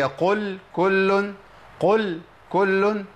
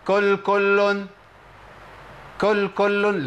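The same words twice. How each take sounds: First: Slow, higher قل كل with the two letters kept apart; qaf separated from kaf. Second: كل كل chanted as kul kullun, same k twice; drawn out, higher كل كل with no q; both as kaf. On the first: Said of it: "لازم أفصل بين مخرج القاف". (قل كل بفصل القاف عن الكاف) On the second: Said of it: "بهيئة واحدة". (كل كل بهيئة واحدة بالكاف) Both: Shown as a demonstration.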